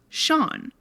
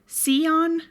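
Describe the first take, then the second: First: The name is said as one syllable, 'shawn'. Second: The name is said as two syllables, 'see-on'. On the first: This is how the name is said in Ireland. The speaker calls it right. "in Ireland, the name S E A N is pronounced Sean" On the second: The speaker had only seen the name written, never heard it. The speaker calls it wrong. "notice how I said Sion"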